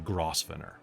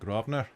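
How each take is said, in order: First: The word is said the way it is spelled. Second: The word is said the local, unspelled way. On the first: This is how an outsider reads the name. "for you, it's the Grosvenor" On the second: This is how the locals say the name. "the buggers pronounce it Grosvenor"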